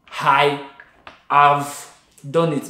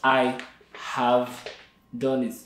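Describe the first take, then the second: First: The H sound is misplaced in the phrase. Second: The H sound is pronounced in standard places. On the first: The speaker calls it wrong. "I just say" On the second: The speaker calls it right. "instead of"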